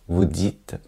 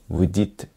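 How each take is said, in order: The two takes are said the same way.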